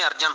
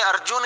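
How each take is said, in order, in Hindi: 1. दूसरे अक्षर में छोटा 'a' स्वर है। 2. दूसरे अक्षर में 'u' स्वर है। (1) "पंजाबी में अर्जन होगा" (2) "हिंदी में अर्जुन ही होगा"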